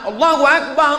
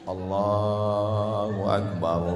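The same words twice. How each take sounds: First: It is said loudly and forcefully. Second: It is said softly and gently.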